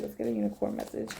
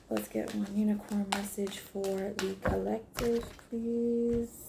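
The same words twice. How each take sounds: First: A soft breathy whisper to the cards; hushed request. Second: Much softer, hushed ask to the deck; quiet plea to the cards; soft request. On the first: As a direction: whisper the ask, almost to herself. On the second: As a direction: murmur the request gently. Soft request while shuffling. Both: Real, not acted.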